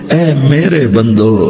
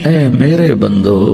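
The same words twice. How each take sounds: The two takes are said the same way.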